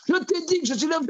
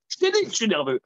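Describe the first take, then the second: First: Shrill escalation. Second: Irritated insistence. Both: Retold or imitated.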